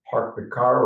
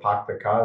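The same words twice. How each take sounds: First: It is said in a standard American accent. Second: It is said in a Boston accent.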